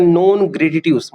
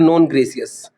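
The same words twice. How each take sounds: First: non ग्रेटिट्यूस with hard t sounds; non ग्रेटिट्यूस read as it is spelt; spelling pronunciation. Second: non ग्रेसियस, softened to an s sound; corrected pronunciation. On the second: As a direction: say non ग्रेसियस as non gray-si-yus. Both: Shown as a demonstration. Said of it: "मतलब non ग्रेसियस".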